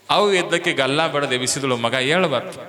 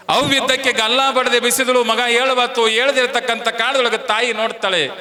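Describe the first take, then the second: First: Said in the usual way. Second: High, loud preacher's cry; loud dramatic retelling. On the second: A narrator's reading. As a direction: ring the words out to the crowd. Mother shakes the dead son. (ಜೋರಾಗಿ ಏರಿದ ಧ್ವನಿಯಲ್ಲಿ)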